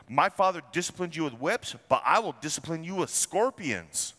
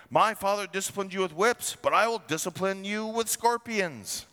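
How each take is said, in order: First: Said in the usual way. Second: Threat pitched higher, harsh and forceful; the king's harsh answer, raised and hard. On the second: Acted. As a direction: bark it down at the people like a tyrant. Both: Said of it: "answered them harshly".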